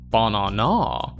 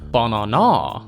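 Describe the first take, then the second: The two takes are said the same way.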